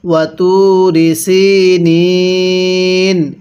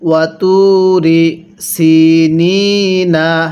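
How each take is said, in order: First: The phrase ends on an n sound. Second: The phrase ends with a final vowel sound. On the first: The reading stops at this point. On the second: The reading continues without stopping.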